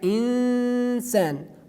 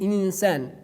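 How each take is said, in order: First: The nasal sound is held for two counts. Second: The nasal sound is held for one count. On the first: The speaker calls it right. "we pronounce it like equal to two letters" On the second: The speaker calls it wrong. "We do not say in insan like one um, haraka"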